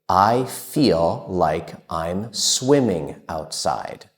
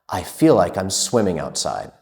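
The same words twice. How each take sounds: First: The sentence is said at a normal, unhurried pace. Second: The sentence is said at a very quick pace.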